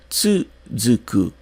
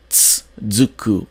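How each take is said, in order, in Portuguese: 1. O primeiro U é bem claro. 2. O primeiro U é quase apagado. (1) "com o U um pouco mais pronunciado" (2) "a gente não tem tsuzuku"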